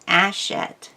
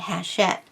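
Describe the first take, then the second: First: It starts with a vowel, no H sound. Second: It starts with an H and a 'sh' sound. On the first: The speaker calls it right. "The French don't pronounce H's if they're on the beginning of a word" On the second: The speaker calls it wrong. "the C H makes the sh sound. So they were saying hachette. However, that is wrong as well"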